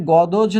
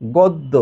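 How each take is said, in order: First: গদজ with the j sounded after a single d; গদজ, d and j as separate syllables; wrong reading of গদ্য. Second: গদ্য said as god-do, no j sound; গদ্য with the d doubled and j silent. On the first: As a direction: say গদজ, sounding out the written জ ফলা. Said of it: "গদজ না হয়ে". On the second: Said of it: "দ দুইবার হবে". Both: Shown as a demonstration.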